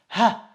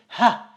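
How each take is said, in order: The two takes are said the same way.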